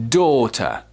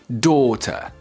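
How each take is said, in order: No difference in how they are said.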